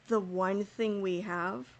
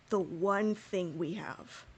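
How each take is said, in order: Both takes have the same delivery.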